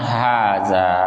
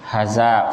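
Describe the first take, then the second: First: Both vowels are held long. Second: Both vowels are cut short. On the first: The speaker calls it right. "hanya panjang, haza, ya, zanya juga panjang" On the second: The speaker calls it wrong. "jangan dibaca pendek ya. Haza salah ya"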